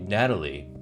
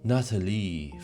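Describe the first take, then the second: First: The name is said with an English pronunciation. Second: The name is said with a French pronunciation. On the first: "he doesn't say Natalie" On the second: "French pronunciation"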